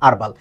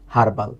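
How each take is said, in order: First: The word begins with no h sound. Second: The word begins with an audible h sound. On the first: The speaker calls it right. "আমরা এটাকে American ইংলিশে বলবো" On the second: The speaker calls it wrong. "তাই না? না"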